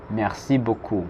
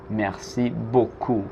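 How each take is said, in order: First: Said in the usual way. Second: Slow, careful Merci beaucoup; slow model. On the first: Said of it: "teacher repeats". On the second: Shown as a demonstration. Teacher introducing Merci beaucoup slowly to students. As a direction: say it slowly for learners to copy. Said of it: "teacher models new words".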